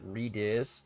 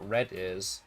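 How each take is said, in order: First: The first part sounds like 'reed'. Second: The first part sounds like 'red'. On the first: The word is read the way the speaker always read it. "always in my mind pronounced it reed ears" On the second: The word is read the way the other player said it. "looked at the word red ears and thought red ears"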